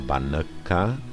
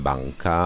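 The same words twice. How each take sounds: First: The n is fully pronounced before the k. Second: The n is weakened and blends into the k. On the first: This is not how it is normally said. The speaker calls it wrong. "a ne banka" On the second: This is how it is normally said. The speaker calls it right. "I v češtině říkáme banka"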